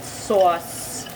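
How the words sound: The word is said in a New Jersey accent. "I have that Jersey accent. I just said sauce"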